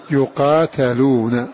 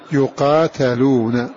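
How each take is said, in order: First: The vowel after the 't' is 'a'. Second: The vowel after the 't' is 'a'.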